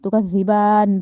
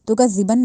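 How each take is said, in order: First: The final vowel is drawn out long. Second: The final vowel is said short. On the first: The speaker calls it right. "बा पे खड़ी जबर है तो हमने इसको लंबा किया" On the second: The speaker calls it wrong. "तो का जिबन नहीं"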